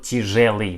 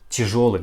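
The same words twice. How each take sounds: First: The stressed vowel sounds like ye. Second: The stressed vowel sounds like yo. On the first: The speaker calls it wrong. "not тяжелый" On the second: The speaker calls it right. "we pronounce like тяжелый"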